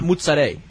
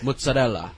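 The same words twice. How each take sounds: First: The word is shortened and the final vowel dropped. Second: Every syllable is sounded, including the final vowel. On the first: The speaker calls it wrong. "It's not" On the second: The speaker calls it right. "those words are pronounced with all the letters"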